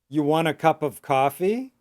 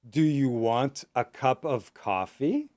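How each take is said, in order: First: The question is spoken at a medium pace. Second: The question is spoken slowly with every word.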